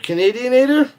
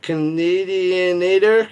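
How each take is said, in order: First: Higher, louder amused disbelief at the word Canadianator; repeating the made-up word in mock amazement; incredulous repeat. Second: Sounds it out slowly, syllable by syllable; finally managing to say Canadianator, slow and deliberate; careful slow try. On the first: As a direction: toss Canadianator back as a baffled question. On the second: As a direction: works through the tricky word Canadianator carefully. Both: Shown as a demonstration. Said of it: "I can't even say it".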